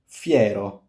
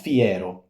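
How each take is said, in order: First: The 'i' glides smoothly into the 'e'. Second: An extra vowel sound is inserted before 'e'. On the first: The speaker calls it right. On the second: The speaker calls it wrong.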